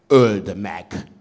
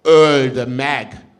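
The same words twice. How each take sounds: First: A single voice rumbles out the demand; rumbling call. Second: Higher, loud enraged cry; furious crowd shout. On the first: Lone voice in the crowd urging the emperor, rumbling. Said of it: "zúgta egy hang". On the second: The crowd demanding the sage's death, shouting furiously. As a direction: roar it like a mob in fury. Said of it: "égig csapott a düh s a vád". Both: A narrator's reading.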